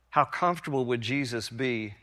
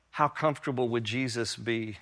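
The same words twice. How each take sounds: The two takes are said the same way.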